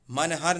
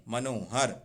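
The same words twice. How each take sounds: First: मनहर without an O after न; wrong form मनहर. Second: मनोहर with long O after न; correct form मनोहर. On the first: Teacher rejects the wrong word, mistaken form. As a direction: say मनहर, man-har. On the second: Teacher corrects मनहर for students, correct form. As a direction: say मनोहर, ma-no-har. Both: Shown as a demonstration. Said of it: "मनहर नहीं".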